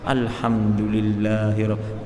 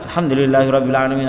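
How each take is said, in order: First: The phrase is recited at a slow pace. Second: The phrase is recited at a fast pace. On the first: The follower reads at a relaxed speed. "agak pelan membaca" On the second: The leader is practiced and reads quickly. "agak cepat"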